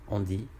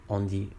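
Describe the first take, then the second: Both takes have the same delivery.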